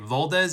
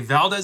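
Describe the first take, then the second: First: The name is said with a Spanish pronunciation. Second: The name is said with an American pronunciation. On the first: The speaker calls it right. "is the correct Spanish pronunciation" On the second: The speaker calls it wrong. "is how an American would say it"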